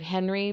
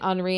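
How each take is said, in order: First: The name is said with English pronunciation. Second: The name is said with French pronunciation. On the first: "instead of Henry" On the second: "because it's the French pronunciation"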